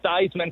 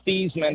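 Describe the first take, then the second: First: The name rhymes with Heisman. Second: The name does not rhyme with Heisman. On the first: This is the pronunciation adopted for the Heisman Trophy. "changed his pronunciation to Theismann for the Heisman Trophy" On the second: This is the original family pronunciation. "he originally was Joe Theismann"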